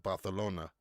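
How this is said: The c is pronounced like th. "pronounces the the Z's like T H's"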